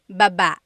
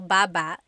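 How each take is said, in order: First: The stress is on the second syllable. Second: The stress is on the first syllable.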